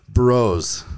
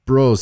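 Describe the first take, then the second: First: Said in the usual way. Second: A light mock Canadian accent on Bros; louder, higher Bros in a hammed-up Canadian accent. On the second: Shown as a demonstration. Host reads a Canadian listener's greeting in a mock Canadian accent. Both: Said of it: "should I read in a Canadian accent?".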